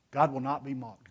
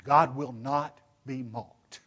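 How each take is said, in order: First: Said in the usual way. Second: GOD WILL NOT BE MOCKED, very slow, each word weighted; emphatic. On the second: Shown as a demonstration. Preacher voicing the verse to his congregation, "God will not be mocked" slow and emphatic. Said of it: "Did you hear that emphatic voice behind it?".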